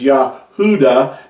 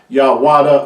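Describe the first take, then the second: First: The middle sound is an oo vowel. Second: The middle sound is a w consonant. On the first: The speaker calls it right. "it's pronounced as Yahuda" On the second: The speaker calls it wrong. "not Yawada"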